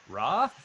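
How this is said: It sounds like a question to a group. The speaker checks whether everyone understands. "asking the platoon if everyone understands Ra"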